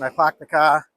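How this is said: It is said in a Boston accent.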